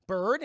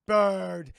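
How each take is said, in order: First: Said in the usual way. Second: Loud, falling single word; robot voice. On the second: Retold or imitated. Robot repeats doctor's word, loud robot voice. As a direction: parrot it back loudly as a robot. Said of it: "the robot goes".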